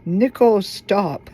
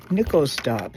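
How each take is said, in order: First: "Nickel Stop" said slowly with weight on Nickel; slow emphatic name. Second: Said in the usual way. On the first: Shown as a demonstration. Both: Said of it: "What's it called?".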